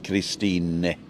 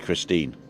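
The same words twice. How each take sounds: First: The final E is pronounced as a syllable. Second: The final E is silent. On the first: This is the German way of saying the name. "Germans pronounce the E, so it's Christine" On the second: This is the English way of saying the name. "English Christine, like the car"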